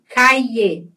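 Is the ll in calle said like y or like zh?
y sound. The ll is said like a y sound. "Vou falar caie, com I"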